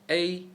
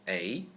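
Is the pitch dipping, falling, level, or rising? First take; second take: level; rising. First: The pitch stays high and level. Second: The pitch rises from middle to high.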